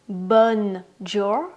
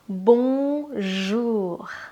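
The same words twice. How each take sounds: First: It is said with an American accent. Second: It is said with a French accent. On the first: The speaker calls it wrong. "it's not bonjour, bonjour. This is the American accent" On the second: The speaker calls it right. "you have to pronounce it with the French accent"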